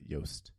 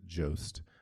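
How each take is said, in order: First: The name is said with a Dutch vowel. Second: The name is said with an English vowel. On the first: This is how Dutch speakers would say it. "it would be pronounced by the Dutch as uh, Joost" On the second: This is how its owner says it. "he pronounces it Jost"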